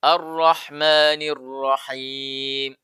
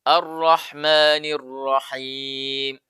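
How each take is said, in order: First: The r sounds are lightly trilled. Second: The r sounds are lightly trilled.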